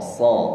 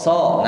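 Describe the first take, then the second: First: The s is heavy, with a deep o-like vowel. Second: The s is light, with a thin, fronted vowel. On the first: The speaker calls it right. "di fathah bunyinya o, so, so, so, ya, berarti dia huruf tebal" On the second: The speaker calls it wrong. "Bagaimana mengucapkan so tipis? ... Nah ini tipis"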